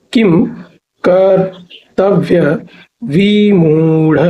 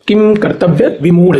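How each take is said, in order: First: Very slow, drawn-out किम कर्तव्य विमूढ़, paused between parts; syllable by syllable. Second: Said in the usual way. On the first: Shown as a demonstration. Teacher breaking a hard term down for students, syllable by syllable. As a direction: stretch किम, कर्तव्य, विमूढ़ apart slowly.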